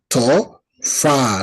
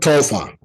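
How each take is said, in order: First: The final vowel is stressed and drawn out. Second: The final vowel is short and unstressed. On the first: The speaker calls it right. "You say tofa, ... stress the A and make it slowly" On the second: The speaker calls it wrong. "not tofa"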